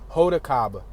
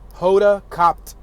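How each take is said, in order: First: The surname ends without any T sound. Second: The surname ends with an audible T sound.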